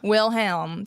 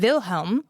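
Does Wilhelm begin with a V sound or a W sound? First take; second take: W sound; V sound. First: The name begins with a W sound. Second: The name begins with a V sound. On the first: "That's how I want to say it" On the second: "the traditional way with a V sound"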